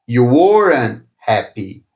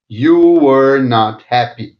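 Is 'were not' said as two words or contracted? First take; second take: contracted; two words. First: Were and not are joined into one contracted word. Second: Were and not are said as separate words.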